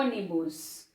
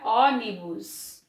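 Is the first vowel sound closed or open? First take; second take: closed; open. First: The first vowel is said closed. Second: The first vowel is said open. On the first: The speaker calls it right. "o som fechado" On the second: The speaker calls it wrong. "Se fosse um acento agudo, ia ficar"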